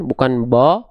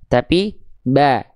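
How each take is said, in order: First: The vowel is full and wide open. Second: The vowel is thin, said with a slight smile. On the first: The speaker calls it wrong. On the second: The speaker calls it right. "Tipiskan ... tapi ba"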